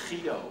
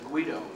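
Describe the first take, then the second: First: It starts with a rough, throaty consonant. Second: It starts with a hard G consonant. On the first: This is the original Dutch form. "My parents called me Guido. Uh, that was in Holland" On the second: This is the form familiar to Americans. "the Italian pronunciation, which is Guido"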